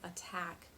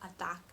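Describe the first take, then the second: First: The T is released with a soft breath. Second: The T is short and choppy without breath. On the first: The speaker calls it right. "you have that soft exhale" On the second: The speaker calls it wrong. "it sounds kind of short and choppy"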